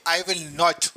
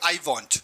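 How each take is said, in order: First: Every word is said fully and separately. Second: 'Will not' is merged into one syllable.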